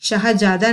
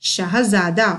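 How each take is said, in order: First: शाहजादा with a j sound, shahjaada; wrong pronunciation. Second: शाहजादा with a z sound, shahzaada; correct pronunciation. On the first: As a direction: say शाहजादा with plain ज, not z. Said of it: "शाहजादा नहीं पढ़ना". (शाहजादा को बिना नुक्ते वाले ज से बोलना) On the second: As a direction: buzz the z in शाहजादा. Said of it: "क्या पढ़ना है?". (शाहजादा को नुक्ते वाले ज़ से बोलना) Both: Shown as a demonstration.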